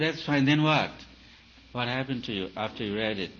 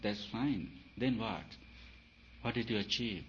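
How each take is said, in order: First: Mock impatient challenge. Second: Said in the usual way. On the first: Teacher acting out a pushy question to a student, loud and impatient. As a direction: press the student for an answer.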